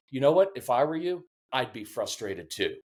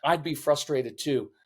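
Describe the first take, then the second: First: A parent calmly showing they get it; validating parent. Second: Put-on meet the child's frustration gently; understated understanding calm; validating. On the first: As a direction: drop your voice and really mean it. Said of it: "I'd rather come in and say". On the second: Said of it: "when I come in the room". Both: Shown as a demonstration.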